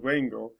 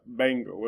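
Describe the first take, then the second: First: The lips stay apart in a soft buzzing sound. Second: The lips close fully for a hard b sound. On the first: "It's more like a W sound with a buzz" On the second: "if it just starts off by itself"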